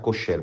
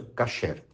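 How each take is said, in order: First: The first vowel sounds like 'o'. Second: The first vowel sounds like 'a'. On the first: A minority pronounce it this way. "Alguns vão pronunciar kosher" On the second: Most people pronounce it this way. "a maioria pronuncia kasher"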